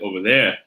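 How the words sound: The R sounds are dropped.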